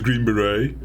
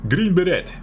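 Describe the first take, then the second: First: The name is said in ordinary English. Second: The name is said in a Dutch way. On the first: "we know it as" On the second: "as we Dutchies like to say, say back in the days, kids"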